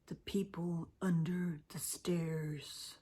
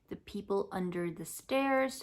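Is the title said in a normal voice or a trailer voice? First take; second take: trailer; normal. First: It is said in a dramatic movie-trailer voice. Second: It is said in an ordinary speaking voice.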